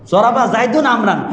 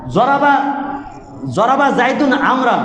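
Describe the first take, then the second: First: "জরাবা" with a d-like sound as in Qur'anic reading; mock altered pronunciation. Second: "জরাবা" recited with a j sound, chanted; Arabic grammar recitation. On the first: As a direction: show the odd way of saying "জরাবা". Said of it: "কেউ কি পড়াইছে কোনো হুজুর যে". (বিকৃত উচ্চারণে "জরাবা") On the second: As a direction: recite "জরাবা জাইদুন আমরান" like a madrasa drill. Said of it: "কি পড়ছাও". (মাদ্রাসার সুরে "জরাবা") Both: Shown as a demonstration.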